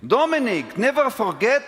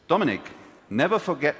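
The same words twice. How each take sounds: First: It is said imitating another person's accent. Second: It is said in the speaker's own plain accent. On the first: The speaker calls it right. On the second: The speaker calls it wrong.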